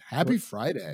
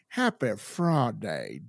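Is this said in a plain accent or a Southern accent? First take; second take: plain; Southern. First: It is said in a plain, everyday accent. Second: It is said in a put-on Southern accent.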